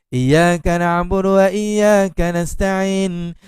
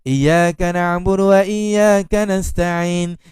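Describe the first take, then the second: Both takes have the same delivery.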